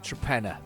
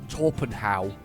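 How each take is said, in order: First: It is said as 'Trepenna', ending in 'ah'. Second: It is said as spelled, ending in 'how'. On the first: This is how local people say it. "the locals pronounce it" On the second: This is how the spelling reads. "it looks like"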